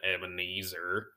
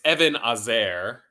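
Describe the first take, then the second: First: The word has an English pronunciation. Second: The word has a Hebrew pronunciation. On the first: The speaker calls it wrong. "which sounds so much better than Ebenezer" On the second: The speaker calls it right. "So in Hebrew, it's Ebenezer"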